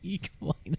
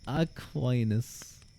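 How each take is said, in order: First: The name begins with the sound of equine. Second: The name does not begin like equine. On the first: The speaker calls it wrong. "It's not Equinus" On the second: The speaker calls it right. "It's Aquinas, not equine"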